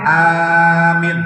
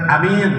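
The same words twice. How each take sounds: First: The first vowel is long, the second short. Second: Both vowels are short. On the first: It means asking for protection and security. "A-nya yang panjang, min-nya yang pendek" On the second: It means safe and peaceful. "A-nya pendek, min-nya juga pen pendek"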